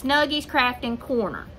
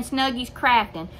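First: "Snuggies Crafting Corner" in full, with Corner added; corrected full name. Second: Put-on "Snuggies Crafting" said without Corner, the old shortened name; the name as she used to say it, "Snuggies Crafting"; wrong short name. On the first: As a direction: set the record straight with "Snuggies Crafting Corner". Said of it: "but it's". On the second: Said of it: "I've just been saying". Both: Shown as a demonstration.

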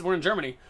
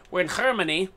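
First: Said in the usual way. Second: "Germany" with a throaty h at the start; mock German accent. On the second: Gamer joking about the German map, mock German accent. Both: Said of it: "I've been talking like a German".

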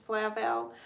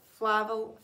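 First: Flavel said fleh-VEL with falling ending; French-style name. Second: Flavel said hesitantly, flat vowels as FLAV-el; first try at the name. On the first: Host tries the viewer's name the French way, settling on it. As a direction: Flavel with open e vowels, stress on the end. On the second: Host sounding out a viewer's last name on a live stream, hesitantly. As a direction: Flavel sounded out slowly with a plain English a. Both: Shown as a demonstration. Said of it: "if you say it in French accent".

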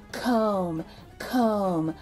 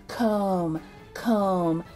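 The two takes are said the same way.

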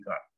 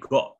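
First: Got with an open ah, as "gaht"; American pronunciation. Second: Got with a rounded o; British pronunciation. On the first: Teacher sums up for students, American got. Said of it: "kalau American got". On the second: Teacher sums up for students, British got. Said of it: "Jadi got kalau British". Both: Shown as a demonstration.

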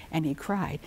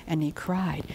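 Both takes have the same delivery.

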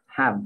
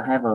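First: "have" as one syllable, "hav"; short one-beat "have", ending without "uh"; corrected HAVE. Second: "have" as two syllables, "he-vơ"; "have" stretched into "heh-vuh"; mispronounced HAVE. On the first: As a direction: close "have" on the consonant, no vowel after. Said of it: "phải đọc là have". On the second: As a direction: add a vowel after the v in "have". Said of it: "Không được đọc là have nhá". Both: Shown as a demonstration.

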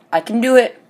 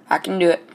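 First: I can do it, higher and louder; pumped-up self-cheer. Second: Said in the usual way. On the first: Real, not acted. Gamer hyping himself up for three kills, pumped. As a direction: hype yourself up.

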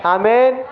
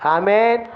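No difference in how they are said.

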